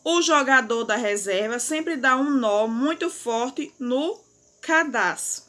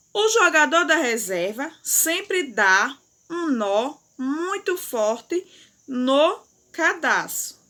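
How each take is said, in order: First: Said in the usual way. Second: "O jogador da reserva sempre dá um nó muito forte no cadastro" read slowly, word by word; slow read-aloud. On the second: Shown as a demonstration. Teacher reading the sentence aloud slowly for pupils. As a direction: read it out slowly for the class to follow. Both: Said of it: "leia em voz alta a frase".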